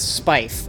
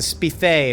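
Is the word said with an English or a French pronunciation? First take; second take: English; French. First: The word is said with a plain English pronunciation. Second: The word is said with a mock French pronunciation.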